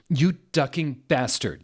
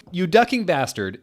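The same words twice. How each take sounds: First: A touch of a mock yell at a rival; half-hearted shouted insult; mild yell. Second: Loud, higher mock yell at a rival. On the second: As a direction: really throw the insult at him. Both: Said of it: "yelled Draco at Vampire".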